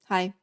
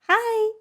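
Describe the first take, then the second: First: It is a flat, expressionless greeting. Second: It is a warm, cheerful greeting.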